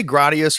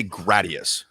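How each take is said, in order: First: "Gradius" with a broad "ah": GRAH-dee-us; alternative pronunciation. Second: "Gradius" with short a: GRAD-ee-us; own pronunciation. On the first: Asking friend which way he says "Gradius", as GRAH-dee-us. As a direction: say "Gradius" with first vowel as in "father". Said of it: "Do you say Gradius or". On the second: Telling friend how he says "Gradius", short-a GRAD-ee-us. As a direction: say "Gradius" starting like "graduate". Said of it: "Like, like graduate". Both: Shown as a demonstration.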